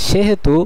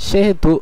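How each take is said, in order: The two takes are said the same way.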